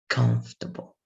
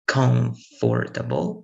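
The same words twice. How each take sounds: First: The middle vowels are cut, stress on first. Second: Every vowel in the middle is fully pronounced. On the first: The speaker calls it right. "It has to be comfortable" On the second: The speaker calls it wrong. "that's why I cannot say it in a good way"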